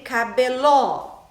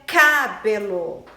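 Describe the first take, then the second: First: The stress is on the last syllable. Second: The stress is on the first syllable. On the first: "e nem cabeló" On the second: "Não é cabelo"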